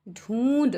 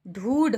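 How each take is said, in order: First: The vowel is said with nasalization. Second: The vowel is said without nasalization. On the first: "इस पे चंद्र बिंदु लगा देते हैं" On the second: "ये तो हो गया ढूढ़"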